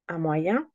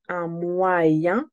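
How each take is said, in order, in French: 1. La phrase est prononcée à vitesse normale. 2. La phrase est prononcée lentement.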